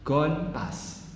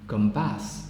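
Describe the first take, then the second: First: The word 'gone' ends in an n sound. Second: The word 'gone' ends in an m sound. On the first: "N letter become M" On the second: "After assimilation"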